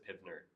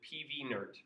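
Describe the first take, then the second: First: PV is blended into the single syllable 'piv'. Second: P and V are said as separate letters. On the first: This is the speaker's own preferred pronunciation. The speaker calls it right. "He said he does not pronounce this PivNert" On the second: This is how a colleague pronounces it. The speaker calls it wrong. "He pronounces it PVNert, which I don't like as much"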